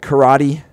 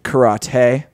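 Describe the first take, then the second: First: It is said the everyday English way. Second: It is said in a Japanese-like way.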